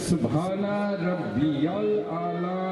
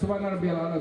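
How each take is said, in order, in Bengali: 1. Subhana Rabbiyal A'la বাক্যটি ধীরে, লম্বা টানা নিঃশ্বাসে বলা হয়। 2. Subhana Rabbiyal A'la বাক্যটি এক ছোট নিঃশ্বাসে দ্রুত বলা হয়। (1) "এভাবে বললে কাজ হবে" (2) "ওইভাবে বলছি না কি আমরা"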